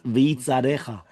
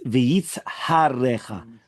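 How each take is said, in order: First: The h sound in the middle is dropped. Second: The h sound in the middle is pronounced. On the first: The speaker calls it wrong. "not v'yitzarecha" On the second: The speaker calls it right. "It's v'yitzharecha"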